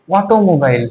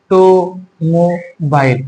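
First: Said in the usual way. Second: automobile split into four slow, separated syllables. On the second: Shown as a demonstration. Teacher asking students to count syllables, slowly split automobile. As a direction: draw out automobile as o, to, mo, bail. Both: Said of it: "কয়টা syllable ভাগ করতে".

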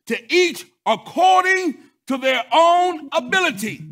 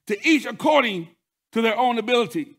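First: "To each according to their own ability" cried out high, loud and slow; emphatic proclamation. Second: Said in the usual way. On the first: Acted. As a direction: land every word of "according to their own ability" like a hammer. Scripture line delivered emphatically.

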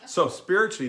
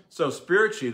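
First: Laughing through the words; words spilling out of a laugh; still laughing. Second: Said in the usual way. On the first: Real, not acted. Laughing after teasing his wife about the clean story. Restart after joke to Donna.

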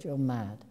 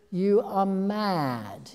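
First: Said in the usual way. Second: Slow, higher, louder drawn-out disbelief; imitating her ex-husband, aghast and emphatic; Tony Richardson's voice. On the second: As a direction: stretch it out as if she's lost her mind. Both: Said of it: "in that kind of voice".

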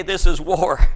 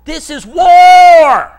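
First: Said in the usual way. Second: Slow, loud and high war cry; proclaiming shout. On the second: Acted. Pastor roaring at the congregation, loud shout. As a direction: roar it at the congregation.

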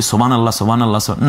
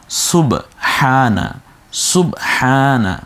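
First: সুবহানাল্লাহ rushed with the h dropped, sounding like সোবানাল্লাহ; wrong pronunciation. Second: সুবহানা slow, clear u and audible h; correct pronunciation. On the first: Teacher demonstrates the students' careless dhikr, rushed and slurred. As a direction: slur সুবহানাল্লাহ fast, swallowing the h. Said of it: "না, না, আপনি ভুল বলছেন". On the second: Teacher models the correct recitation for friends, slowly. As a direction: stretch সুবহানা out syllable by syllable. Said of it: "শুদ্ধ রূপে বলো". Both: Shown as a demonstration.

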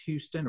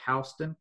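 First: "Houston" pronounced HYOO-stun; first syllable of Houston rhymes with "few". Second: "Houston" pronounced HOW-stun; first syllable of Houston rhymes with "cow". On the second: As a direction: say Houston with "house" at the start. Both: Shown as a demonstration. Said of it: "debate as to whether the name is pronounced".

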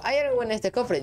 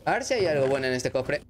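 First: Hopeful question, pitched well up; high-pitched question. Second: Said in the usual way. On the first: Real, not acted. Player asks what the chest holds, high-pitched question. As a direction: ask it much higher, falling at the end.

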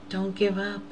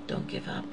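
First: Said in the usual way. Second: Much softer, fading repeat; hushed repeat of the plea; soft echo. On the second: Retold or imitated. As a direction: let the plea die away to almost nothing.

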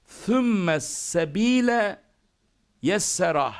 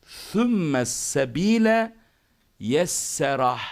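First: "Sümme" with th, slow and high; slow, high "Sümme sebile", lisped first S. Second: "sümme" opens with th, slow and drawn out; lisped S. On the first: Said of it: "sonrakiler normal sin". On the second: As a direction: stretch "sümme sebile" slowly, first S as th. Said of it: "birincisi peltek, sonrakiler normal sin". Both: Shown as a demonstration.

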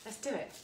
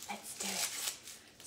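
First: Said in the usual way. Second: Slow breathy whisper, no voice. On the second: Real, not acted. Cook whispering her cue to viewers, drawn out. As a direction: hush it slowly, like a secret. Repeats phrase, second whispered.

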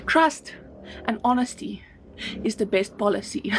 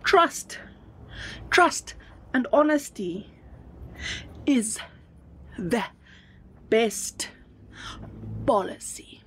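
First: Said in the usual way. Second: Each word set apart by long pauses; dictating word by word; slow dictation. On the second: Shown as a demonstration. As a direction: spell it out slowly so they can write it down. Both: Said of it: "I need to write that down".

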